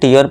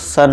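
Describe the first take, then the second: First: The letters are read as 'teeyar'. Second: The letters are read as 'shun'. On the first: The speaker calls it wrong. "कई बार मेरे दोस्त से क्या पढ़ते हैं, टीयर पढ़ देते हैं" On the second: The speaker calls it right. "इसका करेक्ट प्रोनाउंसिएशन क्या होता है दोस्तों, सन होता है"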